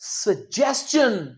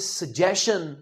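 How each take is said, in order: First: The middle sound is 's' followed by 'ch'. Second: The middle sound is a plain 'sh'. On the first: The speaker calls it right. "इसका सही उच्चारण होता है सजेशन। इसमें च आता है।" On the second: The speaker calls it wrong. "अंग्रेज इसे सजेशन नहीं कहते"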